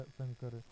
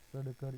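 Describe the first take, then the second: First: Said in the usual way. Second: सड़कर with a hard ḍ before kar; spelled-out nasal form. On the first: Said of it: "अनुस्वार लगाकर लिखा". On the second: Shown as a demonstration. Teacher showing sam, meaning peace, joined to kar, spelled-out सड़कर. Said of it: "पूर्व वाले व्यंजन के ऊपर अनुस्वार".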